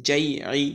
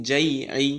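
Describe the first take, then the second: The two takes are said the same way.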